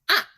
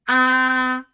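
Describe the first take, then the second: First: The pitch drops sharply from high to low. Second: The pitch stays level and high. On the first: "The fourth tone is the one dropping down" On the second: "The first tone is flat"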